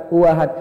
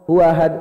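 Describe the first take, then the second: Both takes have the same delivery.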